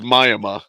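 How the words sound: Miami is said in a rural hick accent.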